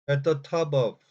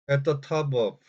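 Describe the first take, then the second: Both takes have the same delivery.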